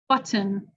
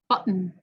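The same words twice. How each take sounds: First: The T is fully released between vowels. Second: The T is a throat stop released nasally. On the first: It does not sound like the American accent. "I'll say it with a regular T" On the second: It sounds like the American accent. "and then with a glottal"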